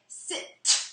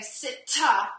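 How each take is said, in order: First: The word ends cleanly on the t sound. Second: An extra 'uh' vowel follows the final t. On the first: The speaker calls it right. "I would say sit" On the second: The speaker calls it wrong. "I wouldn't say sit-ta"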